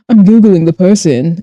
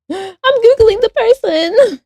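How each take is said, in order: First: Said in the usual way. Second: High, slow, gasping with sudden glee; excited gasp. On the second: Real, not acted. Streamer excitedly deciding to Google the person. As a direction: squeal it out as the idea lands.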